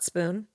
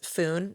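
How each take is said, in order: First: The word begins with an sp sound. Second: The word begins with an f sound. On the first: "not "spoon."" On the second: "Fs for S Ps"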